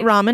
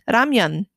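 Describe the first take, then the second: First: The second syllable sounds like 'men'. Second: The second syllable sounds like 'myeon'. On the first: The speaker calls it wrong. "It's not ramen" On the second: The speaker calls it right. "it's ramyeon"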